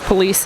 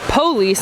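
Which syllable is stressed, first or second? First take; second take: second; first. First: The stress is on the second syllable. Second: The stress is on the first syllable. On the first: "instead of" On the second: "syllable stress can shift from second to first syllable"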